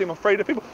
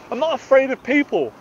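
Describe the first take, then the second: First: Said in the usual way. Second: Firmly contradict, hitting NOT at a raised pitch; emphatic denial. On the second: Real, not acted. Speaker refuting his inner voice, NOT said high and emphatic.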